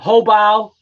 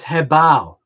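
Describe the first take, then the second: First: The first syllable has an 'hu' vowel. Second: The first syllable has an 'he' vowel. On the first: The speaker calls it wrong. "people call it Hobao" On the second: The speaker calls it right. "If you want the correct pronunciation of it, it's Hebao"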